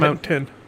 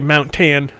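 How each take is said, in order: First: The word is said smoothly as one word. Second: The word is split like two words, Mount Tan. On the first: The speaker calls it right. "of mountain" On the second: The speaker calls it wrong. "people say Mount Tan instead"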